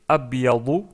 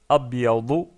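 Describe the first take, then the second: The two takes are said the same way.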